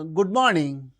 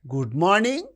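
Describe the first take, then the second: First: The greeting sounds neutral and even. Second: The greeting sounds mocking and sarcastic. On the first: "it's very neutral"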